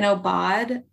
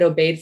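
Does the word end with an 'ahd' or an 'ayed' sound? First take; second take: ahd; ayed. First: The word ends with a short 'ahd' sound. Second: The word ends with a long 'ayed' sound. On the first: The speaker calls it right. "So I'm reading an obad" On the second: The speaker calls it wrong. "I said obeyed for a really long time"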